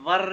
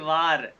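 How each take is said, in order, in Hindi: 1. स्वर छोटा है, जैसे 'var'। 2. स्वर लंबा है, जैसे 'vaar'। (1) "वर नहीं" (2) "सही तरह प्रोनाउंस करना है"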